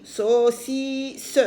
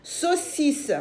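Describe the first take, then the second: First: "saucisse" stretched out, each syllable held. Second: Said in the usual way. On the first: Shown as a demonstration. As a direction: sound out "saucisse" slowly in separate beats. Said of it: "trois fois". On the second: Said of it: "oui, deux fois".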